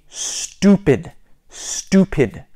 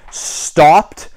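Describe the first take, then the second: First: "stopped" with an OO vowel, like stupid; British-style STOPPED. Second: Said in the usual way. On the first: Shown as a demonstration. Teaching beginners "stopped" as stoo-pid. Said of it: "would be stupid". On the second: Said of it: "American accent stopped".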